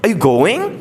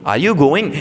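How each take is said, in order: First: It is said with an English-like intonation. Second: It is said with a Hindi-like intonation. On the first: "the same intonation that English speakers use" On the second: "it seems like you're speaking Hindi"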